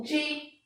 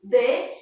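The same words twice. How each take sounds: First: "di" pronunciado "dji"; D com som de DJ. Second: "D" dito "dê", isolado; som da letra sozinha. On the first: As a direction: diga "di" com D chiado, como DJ. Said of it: "e sim o D J". ("di" com som de "dji") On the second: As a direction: diga "D" como "dê", sem chiado. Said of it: "a letra D sozinha tem um som". ("D" com o som puro de "dê") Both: Shown as a demonstration.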